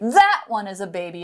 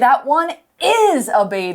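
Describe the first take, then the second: First: The stress falls on the word that. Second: The stress falls on the word is. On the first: The other one, not this one, is a baby. "it means not this one" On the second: Contrary to doubt, it really is a baby. "we're stressing the word"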